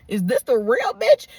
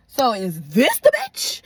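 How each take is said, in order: First: Slow question leaning on "real"; stress on REAL. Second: Slow question leaning hard on "this"; stress on THIS. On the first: Woman questioning her man about the other girl, stress on "real". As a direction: draw out "real" in an incredulous question. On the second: Woman confronting her man about the other girl, stress on "this". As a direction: draw out "this" in an incredulous question. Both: Retold or imitated.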